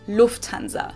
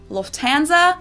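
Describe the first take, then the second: First: The stress is on the first syllable. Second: The stress is not on the first syllable. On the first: This is how German speakers say it. "but in German, we say ... The emphasis is on the first syllable" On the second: This is how English speakers say it. "In English, people usually say"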